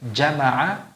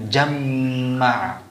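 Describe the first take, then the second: First: The m sound is short and single. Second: The m sound is held long and doubled.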